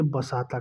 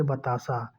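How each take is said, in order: First: "बसाता" as ba-saa-taa, s and t switched; "बसाता" with s ahead of t; swapped sounds. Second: Said in the usual way. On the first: Shown as a demonstration. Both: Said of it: "क्रम में change कर दिया है".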